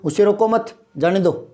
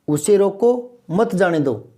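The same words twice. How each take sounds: First: The pause comes right after 'mat'. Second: The pause comes right after 'roko'.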